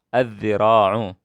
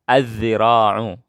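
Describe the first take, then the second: Both takes have the same delivery.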